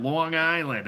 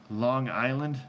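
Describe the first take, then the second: First: A louder, higher mock Long Island accent, stretched. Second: Said in the usual way. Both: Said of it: "that's what he says".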